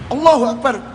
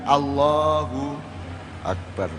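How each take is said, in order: First: It is said forcefully, like a challenge. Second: It is said softly and inwardly, with awe. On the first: It sounds like a challenge to fight. The speaker calls it wrong. "Ini nantang gelut aja apa ini?" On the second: It expresses inner awe at God's greatness. The speaker calls it right. "Jadi Allahu akbar itu adalah kesadaran ke dalam dirimu"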